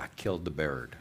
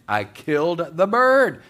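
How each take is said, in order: First: Low, soft mock dismay; hushed realisation. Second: Loud, high, drawn-out acted wail; mock horror. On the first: Woman facing a silent freezer, hushed acted dismay. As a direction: say it small and low, as if it just sank in. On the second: Woman thinking her parrot is dead, loud mock horror. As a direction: cry it out slowly in hammed-up horror.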